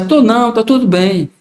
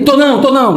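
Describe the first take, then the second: First: Said in the usual way. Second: Higher, curt "Tô não, tô não" hiding being upset; resentful repeated no; sulky denial. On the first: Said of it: "É diferente". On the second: Shown as a demonstration. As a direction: deny it while clearly annoyed. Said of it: "mas na realidade ele, ele tá chateadíssimo".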